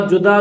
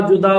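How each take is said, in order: The two takes are said the same way.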